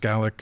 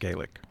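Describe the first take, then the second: First: The word is said the Scottish way. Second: The word is said the Irish way. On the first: This is the form used in Scotland. "in Scotland it's Gaelic" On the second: This is the form used in Ireland. "in Ireland it's Gaelic"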